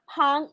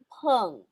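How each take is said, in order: First: The syllable has an open 'a' vowel. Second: The syllable has a mid 'e' vowel. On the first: The speaker calls it wrong. "That's not pang" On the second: The speaker calls it right. "it's peng"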